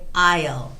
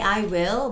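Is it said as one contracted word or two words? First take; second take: one word; two words. First: It is said as one short contracted word. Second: It is said as two full words. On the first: The speaker calls it right. "you have to say I'll" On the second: The speaker calls it wrong. "you shouldn't say I will"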